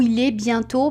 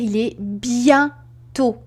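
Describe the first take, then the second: First: The phrase flows with no pause inside. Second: A pause separates bien from tôt. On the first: The speaker calls it right. "On ne fera pas de pause entre bien et tôt. On va dire" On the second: The speaker calls it wrong. "On ne va pas dire"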